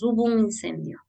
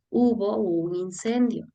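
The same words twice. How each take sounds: First: The vowels between words run together quickly. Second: The vowels between words are kept separate. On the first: "por hablar demasiado rápido escuchamos" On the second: "la forma de hablar sería"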